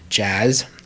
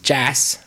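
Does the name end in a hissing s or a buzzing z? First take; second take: buzzing z; hissing s. First: The name ends with a buzzing z sound. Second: The name ends with a hissing s sound. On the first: The speaker calls it right. "but it is indeed Jazz" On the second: The speaker calls it wrong. "I've pronounced it as Jass"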